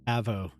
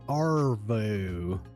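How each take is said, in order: First: The R sound is dropped from the word. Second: The R sound is pronounced in the word. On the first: The speaker calls it right. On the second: The speaker calls it wrong.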